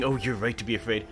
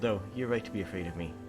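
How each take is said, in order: First: It is said in an aggressive, threatening tone. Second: It is said in a guilty, remorseful tone.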